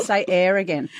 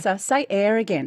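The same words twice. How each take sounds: First: "air" said as a clear air, not ear; air pronunciation. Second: "air" said as a clear air; air pronunciation. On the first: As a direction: say "air" the standard way. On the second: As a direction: pronounce "air" with the open vowel. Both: Shown as a demonstration. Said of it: "they would have said".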